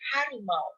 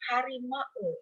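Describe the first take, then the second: First: The final a and u glide as one sound. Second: The final a and u are separate syllables. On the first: The speaker calls it right. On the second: The speaker calls it wrong. "Kita tidak menyebutnya"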